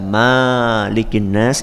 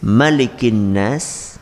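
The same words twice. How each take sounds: First: The first vowel of Malik is long. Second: The first vowel of Malik is short. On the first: It means owner. The speaker calls it wrong. "bacaan yang syadz, bacaan yang ganjil" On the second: It means king. The speaker calls it right. "itu cuma dibaca dengan bacaan pendek saja"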